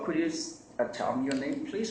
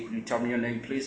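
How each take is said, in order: First: It is said in a friendly tone. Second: It is said in an angry tone.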